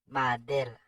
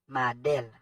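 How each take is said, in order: Both takes have the same delivery.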